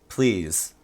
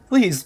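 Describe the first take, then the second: First: It is said plainly, without pleading. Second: It is said in a begging, pleading tone.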